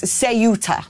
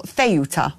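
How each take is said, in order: First: Ceuta said say-OO-tah; Ceuta in three careful beats, starting SAY; southern Spanish pronunciation. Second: Ceuta said thay-OO-tah; Ceuta in three beats, starting THAY; northern Spanish pronunciation. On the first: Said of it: "it is actually pronounced". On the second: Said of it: "or Ceuta further north". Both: Shown as a demonstration.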